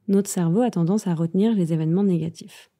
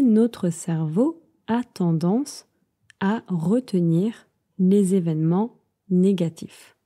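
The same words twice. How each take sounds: First: It is said fast. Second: It is said at a normal pace.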